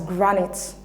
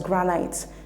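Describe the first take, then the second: First: The second vowel is a short sound. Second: The second vowel is a long sound. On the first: The speaker calls it right. "option A is pronounced as granite" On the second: The speaker calls it wrong. "That is not the appropriate pronunciation"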